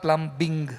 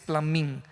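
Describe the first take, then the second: First: The b sound is pronounced in the middle. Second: The b is silent, like plumming. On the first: The speaker calls it wrong. "it is not called plumbing" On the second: The speaker calls it right. "The English pronunciation is plumbing, P L U M M I N G"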